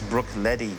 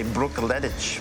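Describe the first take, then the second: First: The name ends with an ee sound. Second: The name ends with a hard ch sound. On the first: It follows the Gaelic pronunciation. The speaker calls it right. "when you pronounce it the Gaelic way" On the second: It is read as it is spelled. The speaker calls it wrong. "you might look at the word and say Brook Laddich"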